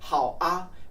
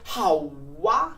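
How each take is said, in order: First: The final particle is a bare vowel 'a'. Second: The final particle begins with a 'w' glide. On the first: "the most bland one is just a" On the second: "if you blend it together, you can say 好哇"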